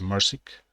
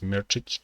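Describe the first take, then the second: First: The name is said with simplified English-style sounds. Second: The name is said with its original Serbian sounds. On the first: "people pronounce that as" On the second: "my last name is"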